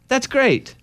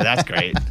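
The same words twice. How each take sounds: First: It sounds sincere. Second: It sounds sarcastic.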